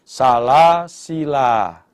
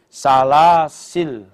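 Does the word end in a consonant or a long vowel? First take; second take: long vowel; consonant. First: The word ends with a lengthened final vowel. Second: The word ends abruptly on a consonant. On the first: "bisa dibaca panjang" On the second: "dibaca pendek"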